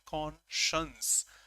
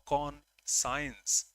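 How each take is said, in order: First: The ending sounds like 'shence', one smooth word. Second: The ending sounds like the word 'science'. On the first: "That's the pronunciation conscience" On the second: "Many people say conscience because science and con they are separated"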